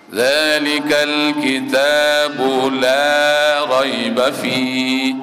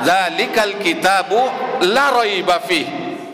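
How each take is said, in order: First: The vowel in 'la' is drawn out long. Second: The vowel in 'la' is cut short. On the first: The speaker calls it right. "panjang la-nya" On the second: The speaker calls it wrong. "tidak dipanjangkan la-nya"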